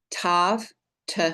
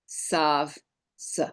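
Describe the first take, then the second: First: "Tav" with a hard t, then "t" alone; hard dagesh sound. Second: "Sav" with a soft s, then "s" alone; soft non-dagesh sound. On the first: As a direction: say "Tav", pause, then a short isolated "t". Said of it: "the hard dagesh version". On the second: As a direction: say "Sav", pause, then a short isolated "s". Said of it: "and the soft non-dagesh version". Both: Shown as a demonstration.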